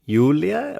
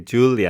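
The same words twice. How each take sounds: First: The name is given a German pronunciation. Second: The name is given an English pronunciation.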